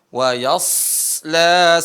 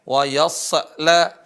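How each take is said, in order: First: The s sound is drawn out and flowing. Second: The s sound is cut short. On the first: The speaker calls it right. "dialirin suaranya" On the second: The speaker calls it wrong. "jangan dibaca"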